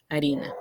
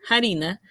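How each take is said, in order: First: The word starts directly with the vowel. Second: The word starts with an audible breathy h. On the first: This is the later stage of the word. "va a perder ese sonido inicial" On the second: This is an older stage of the word. "la F inicial se aspira"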